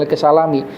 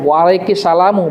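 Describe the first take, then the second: First: The word ends with the vowel i. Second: The word ends with the vowel u. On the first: The speaker calls it wrong. "bukan waalaikumsalami" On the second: The speaker calls it right. "yang betul adalah salamu"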